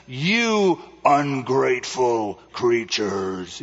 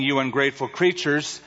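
First: Slow, low, drawn-out wizard; the great Oz thundering, slowly; booming wizard voice. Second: Said in the usual way. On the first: Retold or imitated. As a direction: play the fake wizard scolding. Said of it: "in that voice". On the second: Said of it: "as he's saying".

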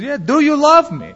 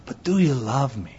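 First: Much higher, pressing question; insistent husband. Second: Softer, gentle, asked quietly; soft plea. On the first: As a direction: press her for an answer, voice raised. Husband repeats his question. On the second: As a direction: drop it to a tender, quiet question. Husband softly repeats his question. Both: Retold or imitated.

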